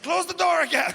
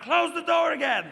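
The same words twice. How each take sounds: First: High, loud mock command; imitating a girlfriend shouting an order; girlfriend's yell. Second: High, loud, strained mock wail; hammed-up girlfriend shriek; revised girlfriend yell. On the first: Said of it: "now she's like". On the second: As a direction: wail the order with a laugh in it. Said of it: "or more like".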